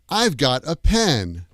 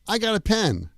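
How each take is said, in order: First: Have is contracted to a short v sound. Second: No v sound is heard before got. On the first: It is the usual American form. "we use the contracted form" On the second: Many native speakers say it this way. "It sounds like I got a pen"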